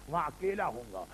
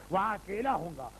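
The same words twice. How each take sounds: First: Hushed lament. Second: Said in the usual way. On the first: Acted. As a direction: lower and softer, a dying man's dread. (نیچی، دھیمی آواز میں تنہائی کا دکھ)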